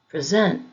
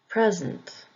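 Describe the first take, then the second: First: The stress is on the second syllable. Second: The stress is on the first syllable. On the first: It is used as a verb. "If the word is being used as a verb, the emphasis will be on the second syllable" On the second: It is used as a noun. "If the word is being used as a noun, the emphasis will be on the first syllable"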